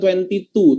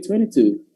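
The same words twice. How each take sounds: First: Each sound is said fully and at normal speed. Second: The sounds run together and it is quicker. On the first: "Jadi bukan twenty-two" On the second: "tapi twenty-two. Lebih cepat dia bacanya"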